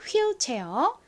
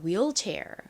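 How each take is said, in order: First: It is said the Korean loanword way. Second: It is said the native English way. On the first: The speaker calls it wrong. "한국식으로는 휠체어" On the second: The speaker calls it right. "실제 영어 발음으로는 휠이 아니라 wheelchair"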